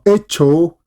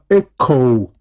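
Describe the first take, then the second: First: The middle consonant is a ch sound. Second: The middle consonant is a k sound. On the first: The speaker calls it wrong. "no vas a pronunciar esto como echo" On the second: The speaker calls it right. "sino echo"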